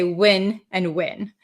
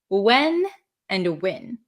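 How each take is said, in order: First: The two words have the same vowel. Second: The two words have clearly different vowels. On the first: This is the speaker's own regional accent. "my natural accent is to say when and when" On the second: This is how people in other regions say it. "other parts of the country or other parts of Canada, um, you'll hear people say when and when"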